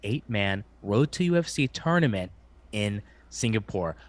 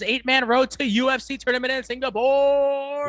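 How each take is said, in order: First: It is said in an ordinary speaking voice. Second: It is said in a booming announcer voice. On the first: "I'll repeat in a normal voice" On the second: "What I wish Bruce Buffer would say is"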